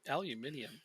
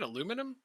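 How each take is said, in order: First: It is said the European way, five syllables. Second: It is said the North American way, four syllables. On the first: "We're not saying aluminium" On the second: "you mean aluminum?"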